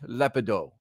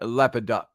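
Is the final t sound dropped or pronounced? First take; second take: dropped; pronounced. First: It ends without a final t, French-style. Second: It ends with a clearly pronounced final t. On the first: The speaker calls it wrong. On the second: The speaker calls it right.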